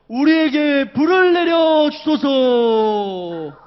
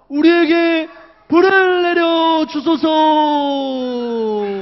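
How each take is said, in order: First: It is said in a louder voice. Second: It is said in a very loud voice. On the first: "이번엔 더 큰 목소리로" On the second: "마지막으로 진짜 큰 목소리로 기도했어요"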